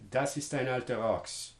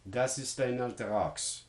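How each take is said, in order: The two takes are said the same way.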